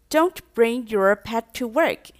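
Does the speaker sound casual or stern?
casual. It is said in a mild, casual tone. It is an easily ignored reminder. "前面在讲的那种语调啊，大家都是听听就算了"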